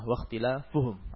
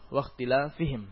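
First: The ending is pronounced with u: -uhum. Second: The ending is pronounced with i: -ihim. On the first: Merely opposing the prophets caused their ruin. "jika kita menjadikannya harakat dhammah" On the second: Frequently opposing the prophets caused their ruin. "bisa dibaca dengan kasrah"

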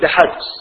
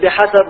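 First: The s has no vowel after it. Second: The s is followed by a short vowel. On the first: It means sufficient. The speaker calls it wrong. "ولا تقل بحد" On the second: It means according to the amount. The speaker calls it right. "وقل بحسب"

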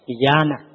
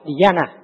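First: The middle a vowel is held long. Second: The middle a vowel is short. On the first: "có dấu ngang thì giữa A này kéo dài" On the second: "Nếu không có dấu ngang thì đọc dhyana"

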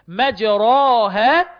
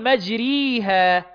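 First: The long vowel is a pure open a. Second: The long vowel is a pure i. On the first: "ما بنقولش مجراها" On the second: "ولا بقول مجريها"

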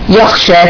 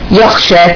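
First: The second consonant is a voiceless, scraping kha. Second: The second consonant is a voiceless, scraping kha.

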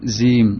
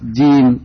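First: The word begins with a z sound. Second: The word begins with a clear j sound. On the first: The speaker calls it wrong. "tidak nirozim, zim, apa ini" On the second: The speaker calls it right. "dengan jelas jim"

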